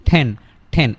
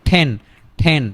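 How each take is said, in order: No difference in how they are said.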